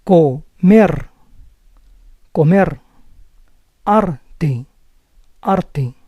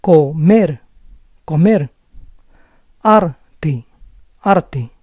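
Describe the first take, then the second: First: Comer and arte with a rolled final R; rolling R. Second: Comer and arte with a soft single-tap R. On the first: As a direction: roll the R at the syllable end in comer and arte. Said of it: "it may sound as a rolling R". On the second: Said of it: "we may use the soft R sound too". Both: Shown as a demonstration.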